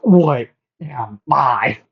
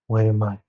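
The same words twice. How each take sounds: First: It is screamed out loudly. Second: It is said at a normal, quiet level.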